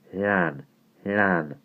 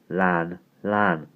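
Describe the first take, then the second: First: "Lan" with a blow of air before it; Welsh double-L demo. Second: "Lan" puffed like a steam engine; trying out the breathy Welsh L in "lan". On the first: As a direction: blow round the tongue into "lan". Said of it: "give it a bit of a blow before". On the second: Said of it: "like a steam engine". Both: Acted.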